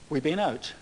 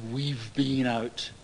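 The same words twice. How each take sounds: First: The v sound is dropped: 'we been out'. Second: The v sound is clearly pronounced. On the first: The speaker calls it right. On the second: The speaker calls it wrong.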